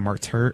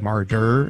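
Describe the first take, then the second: First: The middle consonant sounds like a T. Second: The middle consonant sounds like a D. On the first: "instead of martyr" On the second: "We say martyr"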